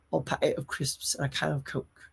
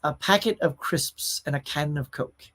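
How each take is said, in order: First: A quiet first try at a Scouse accent; tentative Scouse accent, softer than usual; Scouse attempt. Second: Said in the usual way. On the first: Shown as a demonstration. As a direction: have a go at saying it the Scouse way, softly. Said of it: "I'll have to work on that". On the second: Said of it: "you need to master".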